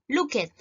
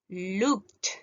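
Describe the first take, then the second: First: The ending is said as a separate syllable. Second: The ending is said as a T sound. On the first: The speaker calls it wrong. "yo no voy a decir aquí" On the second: The speaker calls it right. "ahí es como se debería pronunciar"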